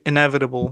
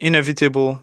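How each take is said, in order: First: It is said the American way. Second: It is said the speaker's own way. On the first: "They say inevitable" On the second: "you say uh, like inev inevitable"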